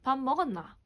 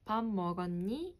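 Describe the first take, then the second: First: It is said in a Busan accent. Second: It is said softly in a Seoul accent.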